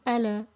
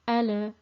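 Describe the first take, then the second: First: The L is released with a vowel-like bounce. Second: The same.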